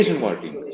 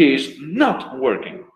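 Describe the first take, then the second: First: Is and not are joined into one word. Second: The words is and not are said separately. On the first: It sounds more relaxed. "Se suena como un poquito más relajado" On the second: It sounds more emphatic. "El otro es como un poco más enfático"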